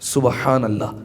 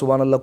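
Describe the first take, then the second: First: It is said slowly and clearly. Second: It is said quickly and run together. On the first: The speaker calls it right. "ये वर्ड है" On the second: The speaker calls it wrong. "कोई वर्ड ही नहीं है"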